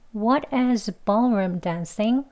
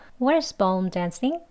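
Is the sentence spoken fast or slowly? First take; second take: slowly; fast. First: The sentence is spoken slowly. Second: The sentence is spoken fast. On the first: "천천히 해볼게요" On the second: "빠른 발음 두 번 해볼게요"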